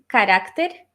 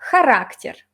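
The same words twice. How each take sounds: First: The word begins with a hard k sound. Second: The word begins with a throaty, rasping sound. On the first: "en español" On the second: "la X, que en ruso significa el sonido G, como J"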